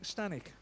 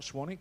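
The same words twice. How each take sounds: First: "Stanwick" said with ST, as the correct name; "Stanwick" with STAN, firm correction; "Stanwick" with a clear T, the right name; corrected place name. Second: "Swanwick" said as the mistaken name, with SW; "Swanwick" with the W, set up as the wrong one; "Swanwick" with SWAN, the name to reject; wrong place name. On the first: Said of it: "not Swanwick, Stanwick". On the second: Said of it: "I nearly said". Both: Shown as a demonstration.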